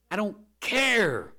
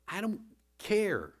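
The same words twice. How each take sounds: First: Louder, slower I don't care, pitched high; emphatic. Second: Said in the usual way. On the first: Acted. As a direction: hammer the words home. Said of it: "repeat, louder". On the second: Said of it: "repeat, plain then stressed".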